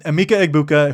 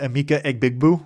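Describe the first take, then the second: First: The surname is said as Egbuka. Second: The surname is said as Egbigbu. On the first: The speaker calls it right. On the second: The speaker calls it wrong.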